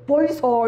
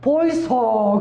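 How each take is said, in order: First: Busan-dialect call with a laugh in it. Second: Loud Busan-dialect wake-up call. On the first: Preacher retelling the wake-up call, laughing Busan dialect. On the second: Preacher waking sleeping passengers, loud Busan-dialect call. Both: Retold or imitated. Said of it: "이제 부산 사람이 제가".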